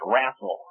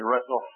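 First: The word is said with a Texan pronunciation. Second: The word is said with a standard pronunciation. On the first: "It's wrestle" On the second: "in Texas, they don't say wrestle"

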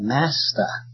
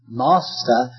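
First: The word is said in an American accent. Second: The word is said in a British accent. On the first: "heights of Americanism and say Master" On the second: "Excuse me saying Master"

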